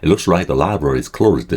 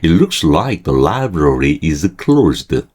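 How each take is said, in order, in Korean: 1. 문장을 빠르게 읽습니다. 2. 문장을 느리게 읽습니다. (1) "좀 빨리 읽을게요" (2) "천천히 읽을게요"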